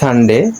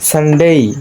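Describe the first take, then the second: First: The last syllable ends in a plain 'e'. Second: The last syllable ends in an 'ee' glide. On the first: The speaker calls it wrong. "not Sunday" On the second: The speaker calls it right. "it will be Sunday"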